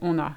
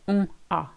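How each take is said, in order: First: The two words are linked with an n sound. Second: The two words are said separately, unlinked. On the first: The speaker calls it right. "We say on a. It flows a lot better" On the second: The speaker calls it wrong. "we don't separate the words. We don't say on a"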